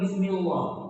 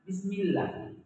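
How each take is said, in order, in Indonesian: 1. L di suku kata terakhir terdengar tebal. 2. L di suku kata terakhir terdengar tipis. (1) "bukan Bismillah" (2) "kita ringankan Bismillah"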